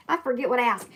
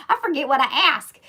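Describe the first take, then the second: First: Said in the usual way. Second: Said through a real laugh, higher and louder. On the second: Real, not acted. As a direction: laugh at yourself while saying it. Laughs at own forgetfulness.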